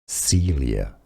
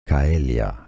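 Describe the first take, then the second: First: The name is said with English pronunciation. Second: The name is said with Latin pronunciation. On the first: "Now in English, it's most generally pronounced as" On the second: "In Latin, it's pronounced as"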